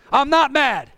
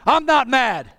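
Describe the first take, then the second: No difference in how they are said.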